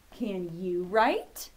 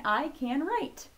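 First: Exaggerated questioning lift at the end; asking a question. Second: "I can write" slow and higher, as a simple statement; telling statement. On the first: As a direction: stretch it out into a clear question. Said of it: "he's asking us a question". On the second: Acted. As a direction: tell it plainly and slowly to small children. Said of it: "He's telling us that".

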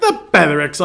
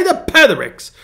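First: Said in the usual way. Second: The Pethericks said higher with a British lilt; a self-mocking go at a British accent; feeble British accent. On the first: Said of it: "I don't wanna say it in English". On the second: Shown as a demonstration. Pastor showing off his British accent on The Pethericks. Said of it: "very feeble attempt at a British accent".

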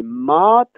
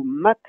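First: "mat" with a long, held A. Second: "mat" with a short, quick A. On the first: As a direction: stretch the vowel in "mat". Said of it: "avec un A long". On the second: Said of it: "avec un A bref". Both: Shown as a demonstration.

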